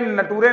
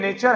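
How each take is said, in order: First: It is said like 'na-too-ray', letter by letter. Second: It is said like 'nay-cher', with a ch sound. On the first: The speaker calls it wrong. "ये नटूरे नहीं है" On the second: The speaker calls it right. "ये नेचर है"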